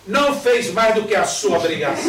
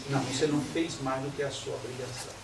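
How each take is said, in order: First: Louder, curt mother's rebuke; stern scolding mother. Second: Said in the usual way. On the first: Retold or imitated. Mother dismissing daughter's passed exams, loud stern rebuke. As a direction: slap the praise down, louder. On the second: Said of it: "Isso é uma tristeza".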